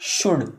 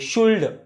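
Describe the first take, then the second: First: The L sound is silent in the word. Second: The L sound is pronounced in the word. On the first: The speaker calls it right. "इसमें एल silent है" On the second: The speaker calls it wrong. "New learners होते हैं, beginners होते हैं, वो इस शुड को शुल्ड बोलते हैं"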